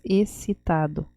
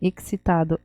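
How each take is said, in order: First: It is said with an 's' sound, Portuguese style. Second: It is said with a 'ks' sound, Spanish style. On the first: "Em português, excitado" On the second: "em espanhol, excitado"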